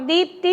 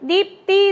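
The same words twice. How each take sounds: First: The first vowel is stretched very long. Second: The first vowel is kept short. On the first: The speaker calls it wrong. "தீயை நம்ம வந்து நெடில் ரொம்ப பெருசாக நீட்டி சொல்லலை" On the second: The speaker calls it right. "தீப்தி தான் சொல்கிறோம்"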